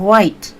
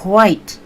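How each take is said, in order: First: The breathy H sound comes before the W. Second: The same.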